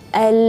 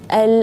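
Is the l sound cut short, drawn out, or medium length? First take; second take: medium; medium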